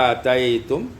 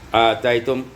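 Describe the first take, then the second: The two takes are said the same way.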